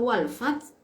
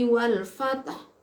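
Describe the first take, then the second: First: It ends on t with no final h. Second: It ends with an audible final h. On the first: A letter of the verse is lost. The speaker calls it wrong. "haknya hilang, matinya pada ta" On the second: Every letter of the verse is kept. The speaker calls it right. "haknya masih ada"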